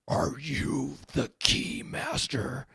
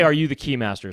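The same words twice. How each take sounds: First: It is said in a Zuul-like monster voice. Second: It is said in his normal voice.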